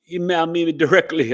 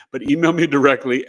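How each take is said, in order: First: Slips into a light West Indian accent, a bit higher and louder; a touch of West Indian lilt on "email me directly". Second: Said in the usual way. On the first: Real, not acted. Host giving email to viewers, accidental West Indian accent. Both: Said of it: "I went into the West Indian accent by accident".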